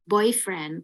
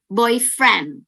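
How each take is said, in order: First: Put-on "boyfriend" dengan BOY ditekan; tekanan di boy. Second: Put-on "boyfriend" dengan FRIEND ditekan; tekanan di friend. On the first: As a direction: tekan suku kata "boy" pada "boyfriend". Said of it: "tekenin di boy". (tekanan di awal untuk arti pacar) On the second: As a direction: tekan suku kata "friend" pada "boyfriend". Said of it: "F yang friend-nya itu ditekanin". (tekanan di friend untuk arti teman laki-laki) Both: Shown as a demonstration.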